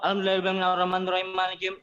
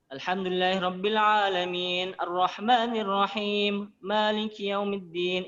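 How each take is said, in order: First: It is rushed so words run together unclearly. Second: It is fast but every word is clear.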